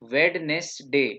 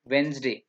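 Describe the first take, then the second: First: Every letter is sounded, including the middle d. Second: The middle d is silent, giving two syllables. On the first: The speaker calls it wrong. "वेडनेसडे नहीं" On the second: The speaker calls it right. "डी silent है ये"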